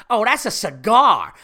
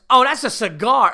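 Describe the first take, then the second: First: Loud, slow scoff; dismissive loud brush-off. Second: High, loud scoff; loud scornful brush-off. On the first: Woman scoffs to her friend about the cigar, loud and slow. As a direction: drag it out loudly and scornfully. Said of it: "she just turns her head quickly to her friend". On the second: Rude woman scoffs loudly to her friend about the cigar. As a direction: shout the dismissal at the friend. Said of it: "She had no fucking manners". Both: Retold or imitated.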